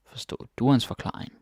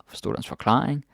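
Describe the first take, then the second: First: Quick phrase with "du" stressed, end falling. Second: "forklaring" stressed with a rising end; stress moved to FORKLARING. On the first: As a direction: lean on "du", as in did YOU. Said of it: "I put this stress on du". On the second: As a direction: lift "forklaring", passing lightly over du. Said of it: "you can change the stress". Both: Shown as a demonstration.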